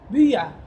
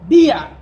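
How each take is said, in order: First: The i vowel is said with rounded lips. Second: The first vowel is a plain i sound.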